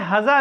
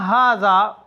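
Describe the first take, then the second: First: The first vowel is cut short. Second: The first vowel is drawn out long. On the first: The speaker calls it wrong. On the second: The speaker calls it right.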